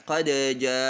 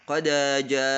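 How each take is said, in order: The two takes are said the same way.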